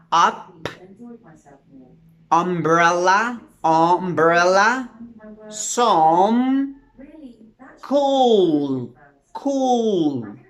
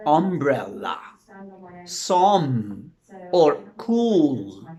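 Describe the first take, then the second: First: Up, umbrella, some, cool said slowly, one by one; careful model words. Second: Said in the usual way. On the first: Shown as a demonstration. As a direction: demonstrate each word deliberately for the class. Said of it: "you need to say one with". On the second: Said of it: "You just talk natural".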